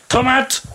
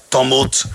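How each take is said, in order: First: Tomate sung high, toh-MAHT; sung, lilt tomate up high like the song. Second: Said in the usual way. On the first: Shown as a demonstration. Speaker sings the French version playfully. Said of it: "say tomate". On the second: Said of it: "says tomut".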